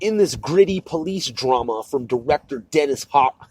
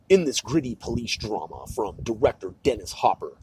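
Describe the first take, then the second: First: It is read in his ordinary voice. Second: It is read in a put-on narrator voice.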